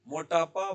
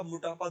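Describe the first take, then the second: First: MOTAPA with an o in मोटापा; full o form. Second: मोटापा said as "mutapa"; first vowel of मोटापा reduced from o to u; shortened u form. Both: Shown as a demonstration. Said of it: "दोनों बनता है".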